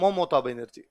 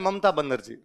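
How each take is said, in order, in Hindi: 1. इस नाम में गोल बंगाली 'o' स्वर हैं। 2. इस नाम में सादे हिंदी 'a' स्वर हैं। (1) "बंगाली उसे कहते हैं" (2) "हम कहते हैं"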